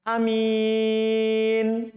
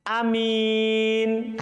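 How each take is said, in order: First: The first vowel is said short. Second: The same.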